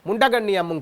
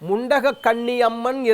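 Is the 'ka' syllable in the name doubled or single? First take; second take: single; doubled. First: One 'ka' syllable is dropped and merged. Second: The 'ka' syllable is said twice, fully. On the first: The lotus meaning is lost. The speaker calls it wrong. "பலர் தவறாகத்தான் சொல்வார்கள்" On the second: The name means lotus-eyed goddess. The speaker calls it right. "முண்டகம்னா தாமரை"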